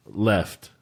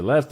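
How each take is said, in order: First: Said in the usual way. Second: "Left" with a rising question tune. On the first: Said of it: "And I'm like". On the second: Retold or imitated. Driver checking the direction, questioning. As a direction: ask "Left" back, rising at the end. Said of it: "He's like".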